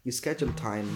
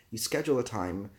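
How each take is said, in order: Both takes have the same delivery.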